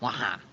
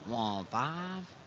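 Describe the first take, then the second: First: The words blur into two loose syllables. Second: The words are run together less distinctly. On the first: "Now it goes to wah-ha" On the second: "they've enunciated less and less"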